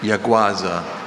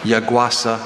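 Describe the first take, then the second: First: The consonant before the last vowel is a z. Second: The consonant before the last vowel is an s.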